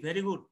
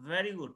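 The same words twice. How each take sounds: First: The first sound is a breathy b-like sound. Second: The first sound is a buzzing v sound. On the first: The speaker calls it wrong. "আমরা বলি ভি ভেরি good" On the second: The speaker calls it right. "কিন্তু আসলে ভেরি good না, ভেরি good"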